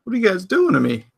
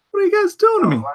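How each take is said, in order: First: Said in the usual way. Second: High squeaky exasperation. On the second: Real, not acted. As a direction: squeal it much higher. Repeats reaction, much higher.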